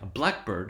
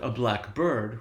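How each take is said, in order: First: It sounds like one single word. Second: It sounds like two separate words. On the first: One thing, a type of bird. "We're saying a blackbird. And you can hear that in the intonation" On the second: "Notice we're not saying"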